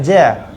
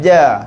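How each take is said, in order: First: It is said with a puff of air. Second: It is said without a puff of air. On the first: The speaker calls it wrong. "Kita tak nak ja" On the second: The speaker calls it right. "nak ja. Pakai tengah lidah"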